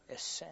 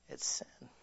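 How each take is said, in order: First: Said in the usual way. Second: Breathy whisper, barely voiced; whispered verdict. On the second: Real, not acted. Preacher whispering the verdict to the congregation. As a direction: let it fall to a hush.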